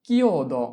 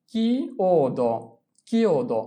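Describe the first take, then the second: First: Said in the usual way. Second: কিওদো drawn out very slowly, each sound apart; very slow model pronunciation. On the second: Shown as a demonstration. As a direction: spell out কিওদো slowly for students. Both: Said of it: "teacher models pronunciation".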